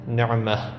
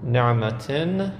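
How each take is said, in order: First: The word ends with a soft 'ah' sound. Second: The word ends with a 'tan' sound. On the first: The reader pauses on the word. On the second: The word is read in connected speech.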